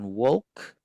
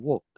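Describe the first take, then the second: First: The L sound is clearly pronounced. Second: The L sound is faint or silent. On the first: The speaker calls it wrong. "bukan walk" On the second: The speaker calls it right. "kata walk ini L-nya samar banget"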